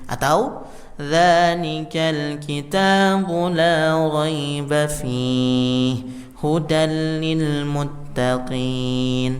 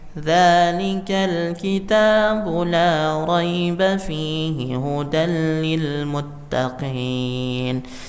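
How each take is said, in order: First: There is a pause right after fihi. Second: It runs straight through with no pause. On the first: The speaker calls it right. "kita berhenti di fi, ya, baru kemudian kita lanjut hudan lil muttaqin" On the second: The speaker calls it wrong. "tidak jarang dibaca semuanya"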